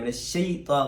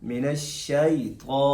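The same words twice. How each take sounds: First: The mouth stays nearly closed on the 'shai' syllable. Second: The mouth opens on 'shai' and then closes. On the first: The speaker calls it wrong. "ऐसा नहीं कि मुंह खुले नहीं और बंद कर दिया जाए। मिनश्शैता गलत है" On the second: The speaker calls it right. "थोड़ा मुंह खोल कर शीन पर फिर बंद करना है"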